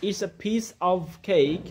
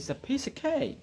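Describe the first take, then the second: First: The word 'of' is said with a full vowel. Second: The word 'of' is reduced to a weak 'uh'. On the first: The speaker calls it wrong. "না বলে" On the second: The speaker calls it right. "আমরা বলি"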